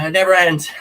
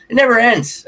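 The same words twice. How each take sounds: First: It never ends, a touch higher, with less force; calmer repeat. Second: It never ends, much higher and louder, thrown out as a cry; exasperated cry. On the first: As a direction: say it never ends again, resigned. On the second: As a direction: howl it never ends at the sky. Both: Real, not acted. Repeating the phrase, rising then settling.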